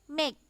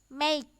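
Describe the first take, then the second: No difference in how they are said.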